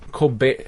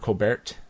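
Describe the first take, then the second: First: The name ends without a T sound. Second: The name ends with a T sound. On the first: The speaker calls it wrong. "that's not actually how you pronounce his name" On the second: The speaker calls it right. "Colbert with the T"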